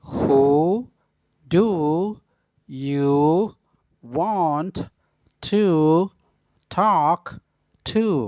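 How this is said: Each word is said separately with pauses. "yang kedua dengan pengucapan kata per kata"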